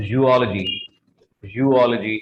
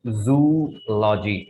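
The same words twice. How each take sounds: First: Zoology said as "ju-OL-uh-jee"; correct pronunciation. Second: Zoology said as "zoo-lojee"; wrong pronunciation. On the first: Teacher modelling the actual pronunciation, carefully correct. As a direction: break zoology after the first vowel, stressing OL. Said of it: "the actual pronunciation of this word is". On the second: Teacher showing students the common mistake, mispronounced. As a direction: say zoology with "zoo" as one syllable, drawn out. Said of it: "This is not". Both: Shown as a demonstration.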